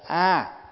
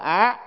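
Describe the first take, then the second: First: The syllable is said with a level tone. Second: The syllable is said with a high rising tone. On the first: The speaker calls it right. "Ví dụ như mình niệm Nam Mô A" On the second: The speaker calls it wrong. "mà cũng phải là á"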